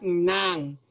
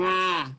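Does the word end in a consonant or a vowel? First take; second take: consonant; vowel. First: The word ends in a nasal consonant. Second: The word ends in an open a vowel. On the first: The speaker calls it wrong. "not nang" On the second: The speaker calls it right. "As in nga"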